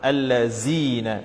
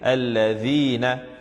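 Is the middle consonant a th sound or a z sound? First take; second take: z; th. First: The middle consonant is a z sound. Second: The middle consonant is a soft th sound. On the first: The speaker calls it wrong. "people tend to read it with a z sound" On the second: The speaker calls it right. "because the letter there is the letter dhal, you need to read it alladhina"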